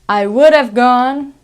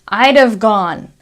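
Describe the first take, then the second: First: I would is said as two full words. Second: I would is shortened to a single syllable. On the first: "So we have I would have gone" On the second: "I'd like I would"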